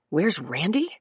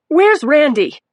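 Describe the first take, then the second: First: Said in the usual way. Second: Sharp, higher, louder urgent question; urgent demand. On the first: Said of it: "echoed in narration thought". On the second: A narrator's reading. Dazed mother demanding her boyfriend. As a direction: demand it, agitated. Mackie demands Randy, agitated.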